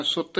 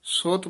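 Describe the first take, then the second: First: ਸੁੱਤ with a doubled T; hard ਸੁੱਤ. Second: ਸੁੱਤ with a light, undoubled T; soft ਸੁੱਤ. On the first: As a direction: clamp down on the T in ਸੁੱਤ. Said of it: "ਸੁੱਤ ਨਹੀਂ ਕਹਿ ਦੇਣਾ". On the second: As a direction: say ਸੁੱਤ gently, without doubling the T. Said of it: "ਪੋਲਾ ਹੀ ਬੋਲਣਾ". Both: Shown as a demonstration.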